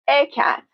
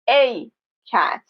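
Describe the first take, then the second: First: The article has a short, reduced vowel. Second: The article has a full, strong vowel. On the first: The speaker calls it right. "in naturally spoken English" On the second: The speaker calls it wrong.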